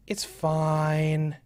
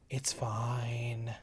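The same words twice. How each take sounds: First: Said in the usual way. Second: Soft unvoiced whisper. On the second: Real, not acted. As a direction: whisper it to yourself. Repeat whispered.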